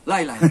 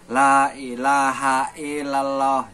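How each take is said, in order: First: It is said quickly and hurriedly. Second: It is said slowly on a steady, level pitch. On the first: The prayer is said in a hurry. "lebih cepat" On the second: The prayer is said carefully and earnestly. "itu tetap segitu aja nadanya tuh. Enggak enggak naik terus gitu"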